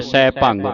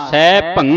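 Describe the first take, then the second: First: ਸਹਿ ਭੰਗ closed with a hard g; common mispronunciation. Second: ਸਹਿ ਭੰ slow and loud, ending on ng without g; stop on nasal. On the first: Retold or imitated. Teacher quoting congregations' mistake, hard final g. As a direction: end ਭੰਗ on an audible g. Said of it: "ਕਈ ਸੰਗਤਾਂ ਭੰਗ ਬੋਲ ਜਾਂਦੀਆਂ". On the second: Shown as a demonstration. Teacher correcting children's reading, slow nasal ending. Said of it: "ਇੱਥੇ ਰੋਕ ਦੇਣਾ ਹੈ".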